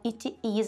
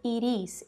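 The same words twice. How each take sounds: First: The two words are said separately and forcefully. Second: The two words run smoothly together as one. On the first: The speaker calls it wrong. "assim, forçado, que esse seria o Brazilian accent" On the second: The speaker calls it right. "é assim que os nativos falam... está juntando uma palavra na outra"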